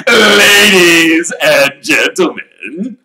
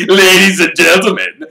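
First: Booming, slow showman address; loud announcement. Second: Booming showman address, higher; grand call to the crowd; loud announcement. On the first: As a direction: call the room to attention. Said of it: "he said loudly". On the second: Repeated address. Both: Acted.

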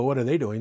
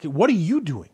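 First: Said in the usual way. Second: Pointed question with a strong swell on "you"; stress on YOU. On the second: Shown as a demonstration. Preacher turning the question on listeners, "you" stressed. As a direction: lean hard on "you", then fall away.

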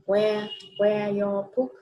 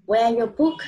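First: Slow, careful teacher repeat of "Where your book"; slower repeat. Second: Said in the usual way. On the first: Shown as a demonstration. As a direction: stretch "Where your book" out slowly so the child can follow. (nhắc lại "Where your book" chậm rãi)

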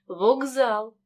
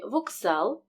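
First: К in «вокзал» said as hard g; voiced к. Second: Said in the usual way. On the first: Shown as a demonstration. Teacher models the spoken form, к voiced. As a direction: say «вокзал» as vogzal. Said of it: "переходить у парний дзвінкий". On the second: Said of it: "глухий «к» перед дзвінким".

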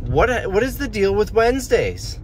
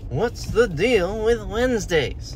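First: High-pitched mock Seinfeld bit; lightly voiced Seinfeld observational whine; Jerry Seinfeld. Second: Slow, high sing-song Seinfeld; lightly voiced Seinfeld observational bit; Jerry Seinfeld. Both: Shown as a demonstration. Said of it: "That's my Jerry Seinfeld impression".

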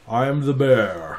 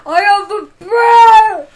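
First: Slow, lightly voiced bear; a hint of a big bear, slowly. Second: Screamed bear line at full blast; shouting. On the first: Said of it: "Do you like it when I do the bear voice?". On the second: Acted. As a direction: yell it like a roaring kid. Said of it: "Don't shout".

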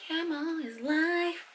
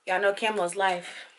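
First: High, soft, drawn-out echo; playful catchphrase echo. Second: Said in the usual way. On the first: Pretend. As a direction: stretch it out slowly, high and soft. Catchphrase repeated for comic effect.

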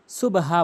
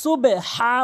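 First: "সুবহা" with b closed straight onto a plain h; common mistake. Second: "সুবে হা" with a short e after b, then strong long haa; corrected pronunciation. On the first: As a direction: shut the b in "সুবহা", no vowel before the h. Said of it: "সুবহা বলে". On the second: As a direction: say "সুবে হা" loudly, releasing the b before a throaty h. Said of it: "সুবে হা বলতে হবে". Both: Shown as a demonstration.

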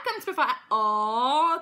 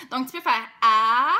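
First: A sounded far back in the throat, slow; throaty A. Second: A placed forward in the mouth, louder; an open A sounded at the front. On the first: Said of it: "tout dans le fond de la gorge". (un A dans le fond de la gorge) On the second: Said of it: "qui est tout en avant". (un A placé tout en avant) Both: Shown as a demonstration.

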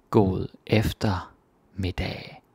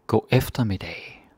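First: God eftermiddag slowly, each syllable separate; slow demo. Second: Said in the usual way. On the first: Shown as a demonstration. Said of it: "slow demo". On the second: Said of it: "normal demo".

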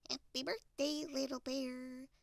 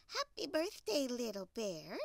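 First: Lightly voiced duck, held high; cheery Duck. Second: Cheery Hen. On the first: Duck greets Little Bear on his birthday, high duck voice. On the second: Acted. Hen greets Little Bear on his birthday, cheery hen voice. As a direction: greet in a lightly put-on hen voice.

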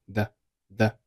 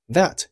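First: "that" softly cut short before the t; unreleased final t. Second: Said in the usual way. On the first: Shown as a demonstration. Teacher showing learners "that" with no released t. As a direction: hold back the t at the end of "that". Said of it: "that结尾的t失爆，读成了". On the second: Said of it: "that结尾的t失爆".

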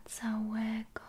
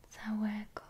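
No difference in how they are said.

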